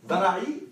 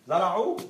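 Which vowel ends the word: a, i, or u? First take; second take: i; u. First: The word ends in a short i vowel. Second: The word ends in a short u vowel. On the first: "it's kasra" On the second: "it's dhamma"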